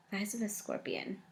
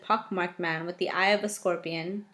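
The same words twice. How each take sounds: First: "The eyes of a scorpion" murmured much softer; quiet musing repeat. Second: Said in the usual way. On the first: Shown as a demonstration. Musing aloud on the book's odd phrase, softly. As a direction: mull the phrase over under your breath.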